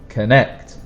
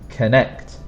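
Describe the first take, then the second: First: The stress is on the second syllable. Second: The stress is on the second syllable.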